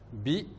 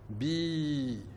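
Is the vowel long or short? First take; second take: short; long. First: The vowel is short. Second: The vowel is held long. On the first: "la kasra, qui fait le son bi" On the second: "la voyelle longue, le ya"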